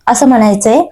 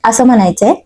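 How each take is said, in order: Both takes have the same delivery.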